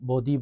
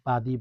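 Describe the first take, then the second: First: The first vowel sounds like 'o'. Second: The first vowel sounds like 'a'. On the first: The speaker calls it wrong. "অনেকে বদি বলবেন" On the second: The speaker calls it right. "ইয়া বাদি বলবেন, বার জবর বা হবে"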